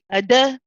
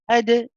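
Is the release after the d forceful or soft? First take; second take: forceful; soft. First: The d ends with a forceful extra vowel. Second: The d ends with a gentle, soft bounce. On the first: The speaker calls it wrong. "I'm putting extra force into that bounce back" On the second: The speaker calls it right. "There's a gentle ending to it. It's a soft ending"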